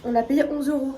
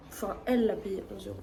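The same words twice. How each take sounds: First: Said in the usual way. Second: Correcting herself, with "elle" stressed and lengthened, said quicker and softer. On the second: Shown as a demonstration. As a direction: put the weight on "elle" to correct who paid. (accent d'insistance sur « elle », en se corrigeant)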